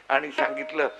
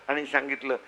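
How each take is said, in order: No difference in how they are said.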